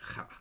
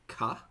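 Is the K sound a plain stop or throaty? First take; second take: throaty; plain stop. First: The K is a rough, throaty sound. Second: The K is a plain, crisp stop. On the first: "more like throaty K" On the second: "Is it ka?"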